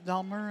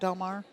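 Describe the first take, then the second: First: The last syllable sounds like 'mer'. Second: The last syllable sounds like 'mar'. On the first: The speaker calls it right. "So it's Delmer" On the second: The speaker calls it wrong. "and not Delmar"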